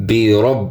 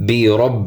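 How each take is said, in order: Both takes have the same delivery.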